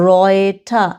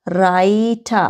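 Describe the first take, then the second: First: রয়টা said with an oy sound, set against রাইটা; teacher's contrast, রয়টা with oy; correct pronunciation. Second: রাইটা said with a clear ai diphthong; contrasting demo of রাইটা; contrast pronunciation. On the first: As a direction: give the right oy in রয়টা. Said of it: "আর এরপরে কি আছে". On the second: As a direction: show that রাইটা sounds like rye, not roy. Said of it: "দেখেন রাই". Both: Shown as a demonstration.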